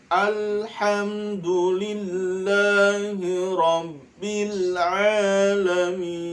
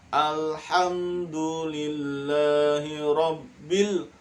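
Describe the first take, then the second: First: "rabbil alamin" with a clear ain, slow; correct reading. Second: "rabbil" with a rounded ro vowel; wrong reading. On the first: Teacher demonstrates the proper reading to pupils. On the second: Teacher shows pupils the mistaken "rabbil". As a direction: say "rabbil" as robbil. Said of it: "jangan rabbil". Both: Shown as a demonstration.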